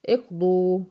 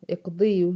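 First: اقضوا said with a damma on the ض and no ي sound; correct form. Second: اقضيوا said with a kasra on the ض and the ي kept before the و; wrong original form. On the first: Teacher gives students the correct pronunciation, crisp. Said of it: "الصح اللي في نطق النهائي اقضوا". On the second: Teacher shows students the original unsimplified form, plainly. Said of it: "أصلها الصح ... اقضوا". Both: Shown as a demonstration.

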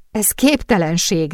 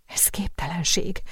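First: Said in the usual way. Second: Breathy whisper, capped with a small rise on képtelenség; whispered disbelief. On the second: A narrator's reading. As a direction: breathe the words out, too stunned to speak aloud. Sophie repeats it in disbelief.

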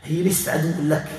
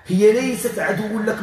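First: Said in the usual way. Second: هي ليست pronounced slowly and fully, pitched up; emphatic insistence. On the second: Real, not acted. Healer confronting a spirit, slow stress on ليست.

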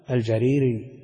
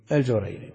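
First: الجريري said al-Jariri, with a after j; fatha on the jim. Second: الجريري said al-Jurayri, with u after j; damma on the jim. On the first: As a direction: say الجريري as "al-JA-ree-ri", long ee in the middle. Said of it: "ينسب إلى جرير بن عبد الله فيقال". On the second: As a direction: say الجريري as "al-JU-ray-ri", ay in the middle. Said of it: "الجريري بضم الجيم". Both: Shown as a demonstration.

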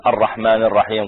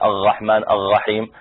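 First: Said in the usual way. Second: الرحمن الرحيم with each ر gargled as غ; ra turned into ghain. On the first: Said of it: "بدل ما يقول". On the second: Shown as a demonstration. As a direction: slowly say "ar-ghahman ar-ghaheem" for الرحمن الرحيم. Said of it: "يبدل الراء غين".

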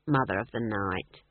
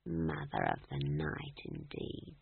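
First: Low, cold mocking title; low sneer. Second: Unvoiced, low whisper, slow. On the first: Leader mocks Granny. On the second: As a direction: hiss the title back at him softly. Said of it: "she whispered".

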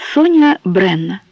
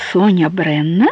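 First: Said in the usual way. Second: "Соня Бренна" asked back, pitch climbing on "Бренна"; surprised echo question. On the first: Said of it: "ответила она". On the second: A narrator's reading. He asks the woman her name back, "Соня Бренна" as a surprised question. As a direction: query the name "Соня Бренна", ending on a rise. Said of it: "переспросил он".

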